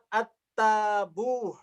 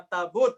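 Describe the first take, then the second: First: The word ends with a soft h sound. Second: The word ends with a clear t sound. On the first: "apakah disebut dengan ta marbutoh" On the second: "atau ta maftuhah?"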